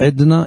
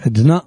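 First: The stress is on the first syllable. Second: The stress is on the last syllable. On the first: The speaker calls it wrong. "אין בעברית" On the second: The speaker calls it right. "יש עדנה מלרע"

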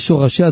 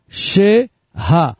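First: The first vowel sounds like 'o'. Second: The first vowel sounds like 'a'. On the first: The speaker calls it wrong. "אל תקרא את זה שורשיה, זה טעות" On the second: The speaker calls it right. "כך קוראים את זה. השין בקמץ רחב"

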